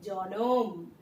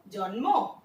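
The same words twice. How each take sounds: First: জনম with a vowel between ন and ম; জনম, the cluster broken up; জনম said as two clear syllables; vowel inserted. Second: জন্ম with the cluster kept; জন্ম said as written, slow; জন্ম, slow and clear; as spelled. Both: Shown as a demonstration. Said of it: "দেখো, জন্ম, জনম".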